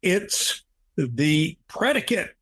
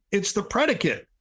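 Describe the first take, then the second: First: Slow, drawn-out mock yell at a higher pitch; startled awake, sitting bolt upright in bed; retold yell. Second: Retold yell. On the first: Sitting bolt upright in bed, blurting it out in a slow mock yell. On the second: Waking his wife in the night with a high mock yell. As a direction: repeat it much higher, as a mock yell. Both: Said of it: "and yelled".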